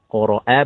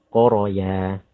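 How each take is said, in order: First: The middle has a glottal stop. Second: The middle has a y sound. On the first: The speaker calls it right. "Qoro'a bukan qoroya" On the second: The speaker calls it wrong. "bukan qoroya"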